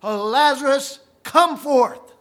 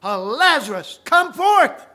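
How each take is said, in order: First: Loud, high call into the tomb. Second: Much higher, louder, delighted shout; excited cry. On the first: Preacher voicing Jesus calling Lazarus from the tomb, loud high call. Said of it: "with a loud voice". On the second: Preacher voicing Jesus crying to Lazarus, excited high shout. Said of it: "he cried with that excited voice". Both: Acted.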